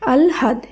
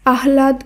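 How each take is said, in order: First: The h sound comes after the l. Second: The h sound comes before the l. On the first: The speaker calls it right. "শব্দটির শুদ্ধ উচ্চারণ হবে" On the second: The speaker calls it wrong. "সেটি হবে ভুল উচ্চারণ"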